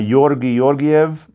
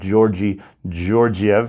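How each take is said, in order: First: The name has a Bulgarian-style pronunciation. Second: The name has an English-style pronunciation. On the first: "I believe is how you say his name" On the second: "if you were to say it in uh, in English"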